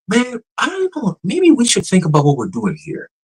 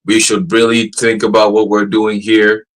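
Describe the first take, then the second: First: Imitated human-like AI tone. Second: Slow, deliberate robot reply at normal pitch; imitated measured AI tone. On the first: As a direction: mimic a chatbot pondering like a person. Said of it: "the pitch, tone". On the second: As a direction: mimic the chatbot, measured and even. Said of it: "the pitch, tone ... it went from".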